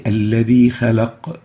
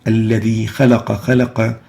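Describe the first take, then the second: First: "خلق" stopped on a still qaf with a bounce; "خلق" as khalaq, qaf released sharply; pausing with sukoon. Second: "خلق" ending in a full fatha, khalaqa; "خلق" as khalaqa, no sukoon; unpaused vowel ending. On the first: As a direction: end "الذي خلق" on an echoed q, no final fatha. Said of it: "we always pause with sukoon". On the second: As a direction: say "الذي خلق خلق" with each final qaf running into an "a". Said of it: "So we don't say". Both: Shown as a demonstration.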